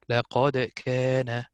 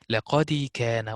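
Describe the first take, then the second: First: The d sound is held with a slight echo. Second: The d sound gets an added i-like vowel. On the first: The speaker calls it right. "You only pronounce dal stable, but with a little bit of turbulence" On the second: The speaker calls it wrong. "I moved the lower part of the mouth when I said the dal, which is not correct"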